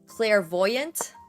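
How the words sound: The word is said with an English pronunciation. "I literally don't even know how to pronounce it in English"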